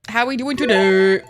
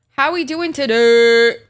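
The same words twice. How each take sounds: First: Said in the usual way. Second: Slow, loud drawn-out greeting. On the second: Real, not acted.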